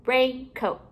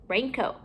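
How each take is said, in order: First: RAINCOAT with a gap between "rain" and "coat"; two separate parts. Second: Said in the usual way. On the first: Shown as a demonstration. Teacher building compound words for pupils, halves kept apart.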